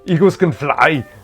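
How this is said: A put-on voice with a heavy Austrian accent. "Arnold Schwarzenegger, just out of curiosity"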